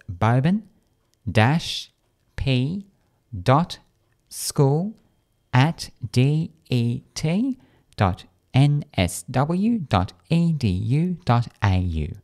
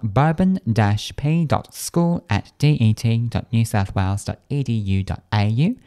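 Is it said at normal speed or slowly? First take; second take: slowly; normal speed. First: It is said slowly. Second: It is said at normal speed.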